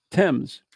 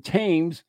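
First: "Thames" as "temz", with a short E; British pronunciation. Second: "Thames" as "taymz", with a drawn long A; spelling pronunciation. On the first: Explaining British vowels to co-host, "Thames" with a short E. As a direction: say "Thames" to rhyme with "gems". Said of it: "the E's are A's". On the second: Explaining British vowels to co-host, "Thames" with a long A. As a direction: say "Thames" to rhyme with "names". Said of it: "so the A's are E's". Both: Shown as a demonstration.

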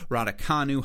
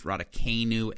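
First: Raducanu as "rad-uh-KAH-noo"; alternative pronunciation. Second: Raducanu as "rad-uh-KAY-noo"; Michigan-style pronunciation. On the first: Podcaster offering the other pronunciation, Raducanu as KAH-noo. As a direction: open the third syllable of Raducanu to KAH. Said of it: "however you want to pronounce it". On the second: Podcaster showing their Michigan roots, Raducanu as KAY-noo. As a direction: stretch the third syllable of Raducanu into KAY. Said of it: "That was my inner Michigan roots". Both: Shown as a demonstration.

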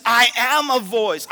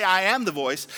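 First: "I am" loud, high and stretched; emphatic "I am a voice". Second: Said in the usual way. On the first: Shown as a demonstration. Preacher correcting what John said, "I am a voice" proclaimed emphatically. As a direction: hit "I am a voice" with force. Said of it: "He said". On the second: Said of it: "He didn't say".

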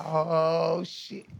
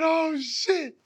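First: Said in the usual way. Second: "Oh, shit." thrown out high and sharp; re-live the moment the heart dropped; high startled Oh, shit; retold shock. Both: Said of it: "I said".

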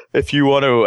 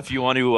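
First: Words stretched by a yawn. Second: Said in the usual way. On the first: Real, not acted. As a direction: say it mid-yawn. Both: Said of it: "as I yawn".

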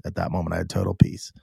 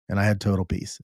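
First: Breathy hushed whisper, a bit quicker; soft awed whisper recalling the moment. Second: Said in the usual way. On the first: Real, not acted. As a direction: hush the words down to a whisper. Repeats line, drops to whisper.

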